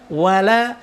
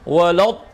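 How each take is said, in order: First: The L is pronounced light and thin. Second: The L is pronounced heavy and thick. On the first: The speaker calls it right. "wala lanya juga sama tipis" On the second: The speaker calls it wrong. "bukan walad"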